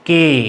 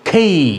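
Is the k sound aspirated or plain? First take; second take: plain; aspirated. First: The k is plain and the vowel does not glide. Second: The k is breathy and the vowel glides up. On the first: The speaker calls it wrong. "এটি ভুল উচ্চারণ" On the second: The speaker calls it right. "ক্ষয়কারে খে, রস্য ই"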